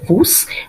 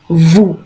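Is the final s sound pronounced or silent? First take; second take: pronounced; silent. First: The final s sound is pronounced. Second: The final s sound is silent. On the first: The speaker calls it wrong. "we are not going to say nous or vous" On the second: The speaker calls it right. "we are going to say nous, vous"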